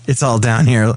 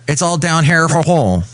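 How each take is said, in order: First: It is said in his normal voice. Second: It is said in a Swedish Chef voice.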